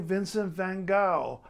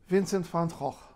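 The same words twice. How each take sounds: First: The name is pronounced with English sounds. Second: The name is pronounced with Dutch sounds. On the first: English-speaking listeners will recognize the name. "you're speaking to other English people" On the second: The speaker knows the original Dutch pronunciation. "trying to say it correctly according to the Dutch"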